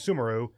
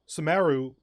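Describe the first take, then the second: First: The stress is not on the second syllable. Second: The stress is on the second syllable. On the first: The speaker calls it wrong. "I've been saying Sumeru, but no" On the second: The speaker calls it right. "second syllable stress"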